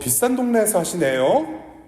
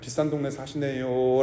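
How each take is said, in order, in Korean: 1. 구절 끝에서 음높이가 올라갑니다. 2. 구절 끝에서 음높이가 내려갑니다. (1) "그분은 분명히 말꼬리가 올라갔어요" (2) "위로의 말씀으로 들리는 거예요"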